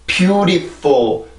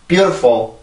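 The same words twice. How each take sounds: First: The word is said slowly and carefully. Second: The word is said quickly and reduced. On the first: "천천히 하면 이렇게 정확히 해야 되지만" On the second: "빨리 발음을 하면"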